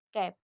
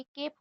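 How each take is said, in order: First: कैप with a short flat "a" as in cat; short a in cap. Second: केप with a long "ay" sound, like the letter A; long a in cape. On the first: Teacher contrasting cap with cape, short vowel. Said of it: "यहाँ पे सीएपी कैप है". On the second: Teacher showing magic e turning cap into cape, long vowel. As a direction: stretch केप into "kayp". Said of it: "अगर ई vowels आ रहा है". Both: Shown as a demonstration.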